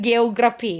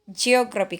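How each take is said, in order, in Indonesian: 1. Kata itu diawali dengan bunyi G keras. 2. Kata itu diawali dengan bunyi J lunak. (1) "Bukan geografi ya" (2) "J yang pertama dia harus soft karena diikuti oleh huruf E, maka dia harus dibaca J"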